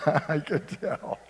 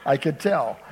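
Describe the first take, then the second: First: Slow, laughing through the words. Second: Said in the usual way. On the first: Real, not acted. Preacher teasing a listener who dislikes peas, laughing. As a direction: chuckle it out.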